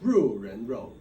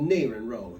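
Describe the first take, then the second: First: It is said with the standard pronunciation. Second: It is said with a Southern regional pronunciation. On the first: This is the usual name elsewhere. "but it's" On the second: This is how people in the South say it. "in the South we call it"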